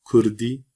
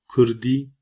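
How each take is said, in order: Both takes have the same delivery.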